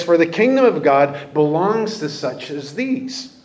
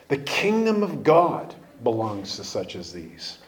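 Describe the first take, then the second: First: Said in the usual way. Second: Quiet emphatic repeat. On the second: Shown as a demonstration.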